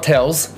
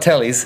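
First: The name is said like 'tells'. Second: The name is said like 'tellies'. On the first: "It's not Tells" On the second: "it's not Tellies"

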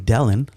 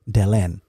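First: The stress is on the first syllable. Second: The stress is on the second syllable. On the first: The speaker calls it wrong. "some people will say Delen, like, you know, yeah. like Helen" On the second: The speaker calls it right. "so people would emphasize the last part"

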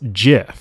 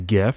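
First: The word begins with a j sound. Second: The word begins with a hard g sound. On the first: "more of the pronunciation of a J starting at the top of it" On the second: "a lot of people oftentimes will say GIF, as I do"

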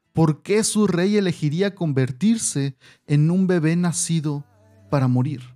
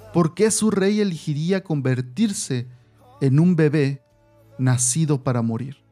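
No difference in how they are said.

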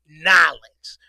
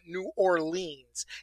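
First: The name is clipped into two quick syllables. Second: The name is said in full, syllable by syllable. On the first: The speaker calls it right. "You got to say it the right way" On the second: The speaker calls it wrong. "I know it's not New Orleans"

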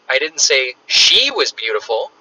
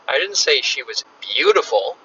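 First: The stress is on "she". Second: The stress is on "beautiful".

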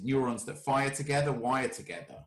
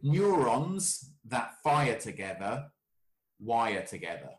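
First: It is said at normal conversational speed. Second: It is said slowly and deliberately.

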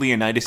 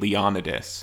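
First: The name is said the English way. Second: The name is said the Greek way. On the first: "is like the English version of it" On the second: "is how you actually say it in Greek"

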